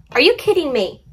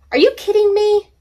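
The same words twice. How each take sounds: First: "you" raised, falling at the end; real but tamer exasperation; milder disbelief. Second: "you" shot up very high and loud; real exasperated squeal at the cat; shocked outburst. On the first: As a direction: repeat "Are you kidding me" half-calmed. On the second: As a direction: yelp "Are you kidding me" in disbelief. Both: Real, not acted.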